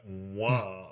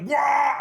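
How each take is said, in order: First: Low-key, soft little Wah; a soft, dainty mock war cry; overtly effeminate. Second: High, loud orc player's Wah; top-of-the-voice war cry. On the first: Shown as a demonstration. Joking about a harmless button sound, overtly effeminate soft war cry. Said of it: "effeminate or something". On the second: Retold or imitated. Imitating an orc player at a random table, full-voiced war cry. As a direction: yell it like an orc player at an event. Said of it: "at the top of their voice".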